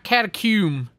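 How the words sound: The word is said with a British pronunciation. The speaker calls it wrong.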